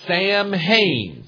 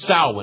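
First: It is said like 'Sam-hane', as written. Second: It is said like 'Sow-in', with silent letters. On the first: The speaker calls it wrong. "it looks like Samhain, some guy named Samhain" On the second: The speaker calls it right. "but it's pronounced Samhain"

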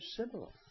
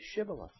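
First: The word begins with a plain 's' sound. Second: The word begins with a 'sh' sound. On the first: The speaker calls it wrong. "Couldn't make that sound shit. And they would answer Shibboleth" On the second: The speaker calls it right. "they would be asked to say Shibboleth"

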